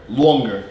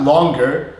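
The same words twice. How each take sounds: First: Longer with a rounded aw, falling; East Coast vowel. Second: Longer with an open ah, rising; generic American vowel. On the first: Teacher showing own accent, rounded aw in longer. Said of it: "That's my normal accent". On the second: Teacher showing the contrast, open vowel in longer. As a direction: say longer without the East Coast aw. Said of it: "not longer". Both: Shown as a demonstration.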